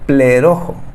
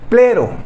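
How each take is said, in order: First: The word has an extra final vowel syllable. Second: The word ends after two syllables, plero. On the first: The speaker calls it right. "Así se debe de pronunciar" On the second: The speaker calls it wrong. "siempre la pronuncié mal. Yo siempre decía plero"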